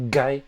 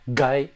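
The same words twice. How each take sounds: The two takes are said the same way.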